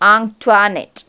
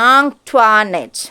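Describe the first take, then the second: First: The name is said as 'ahn-twa-net'. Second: The same.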